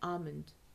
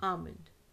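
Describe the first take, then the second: The two takes are said the same way.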